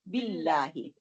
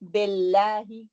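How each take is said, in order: First: The i vowels are kept short and pure. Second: The i vowels are spread, drawn toward e. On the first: The speaker calls it right. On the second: The speaker calls it wrong.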